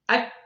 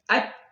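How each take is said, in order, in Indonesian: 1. Suku kata ini diucapkan dengan kecepatan normal. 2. Suku kata ini diperlambat, dengan hentian sebelum dilepas.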